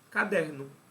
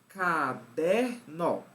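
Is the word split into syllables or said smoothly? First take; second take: smooth; split. First: The word is said smoothly in one piece. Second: The word is broken into separate syllables. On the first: The speaker calls it right. "da forma mais natural possível" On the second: The speaker calls it wrong. "silabar a leitura da palavra"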